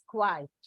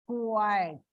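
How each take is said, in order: First: The word is said as one syllable. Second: The word is said as two syllables. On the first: "Indian version of pronunciation is quiet. One syllable" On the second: "It is not one syllable, but two syllables"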